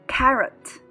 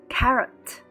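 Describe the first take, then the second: Both takes have the same delivery.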